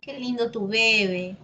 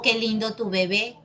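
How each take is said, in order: First: Bebé said BÉ-be; Qué lindo tu bebé with bebé stressed on the first syllable. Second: Bebé said be-BÉ; Qué lindo tu bebé with bebé stressed on the last syllable; final stress. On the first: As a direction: say bebé as BEbe. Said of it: "Tú dices". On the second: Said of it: "Es lo mismo". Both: Shown as a demonstration.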